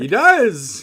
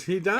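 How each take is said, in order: First: Emphatic. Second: Said in the usual way. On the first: Real, not acted. Emphatic agreement with co-host.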